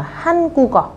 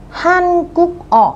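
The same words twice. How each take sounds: First: "Hàn Quốc o" with k carried onto "o", as han-gu-geo; linked reading. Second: "Hàn Quốc o" very slow and higher, gap before "o"; separate syllables. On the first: Teacher showing students how "Hàn Quốc o" links, k moved over. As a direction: join "Quốc o" without a gap. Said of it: "khi đọc nối lên chúng ta sẽ phải đọc là". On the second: Teacher reading "Hàn Quốc o" as written, separate syllables. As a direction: close "Quốc" on k, then a lone "o". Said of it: "khi đọc nối lên". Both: Shown as a demonstration.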